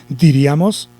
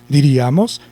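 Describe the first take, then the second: The two takes are said the same way.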